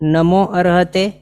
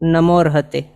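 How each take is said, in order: First: The vowel after 'namo' is pronounced separately. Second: The vowel after 'namo' is dropped and merged. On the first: The sound joining is left incomplete. The speaker calls it wrong. "નમો અરહતે અશુદ્ધ સંધિ છે" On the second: The sound joining is complete. The speaker calls it right. "આ પૂર્ણ અને શુદ્ધ સંધિ છે"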